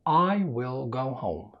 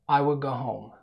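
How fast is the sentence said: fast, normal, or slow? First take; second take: slow; normal. First: The sentence is spoken slowly and carefully. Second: The sentence is spoken at a normal speed. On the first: "هنبدأ بالسرعة الهادية في الكلام" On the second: "السرعة الطبيعية"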